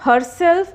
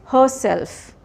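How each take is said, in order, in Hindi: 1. R ध्वनि उच्चारित होती है। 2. R ध्वनि मौन होती है। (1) "it's not herself" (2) "it is herself"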